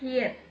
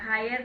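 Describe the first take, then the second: First: The vowel sounds like the 'ee' in 'here'. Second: The vowel sounds like the 'i' in 'high'. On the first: The speaker calls it right. "ஹியர் சரிங்களா" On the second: The speaker calls it wrong. "ஹையர் கிடையாது"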